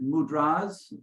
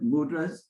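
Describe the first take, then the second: First: The stress is on the last syllable. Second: The stress is on the first syllable. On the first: The speaker calls it right. "we pronounce it mudras ... So the accent is on the last day" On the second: The speaker calls it wrong. "rather than"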